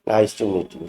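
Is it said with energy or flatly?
flatly. It is said flatly without any feeling.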